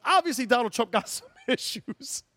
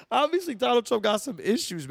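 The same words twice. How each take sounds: First: Laughing. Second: Said in the usual way. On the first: Real, not acted.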